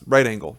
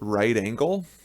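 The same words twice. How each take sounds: First: It is said quickly, running the words together. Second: It is said at a normal, careful pace.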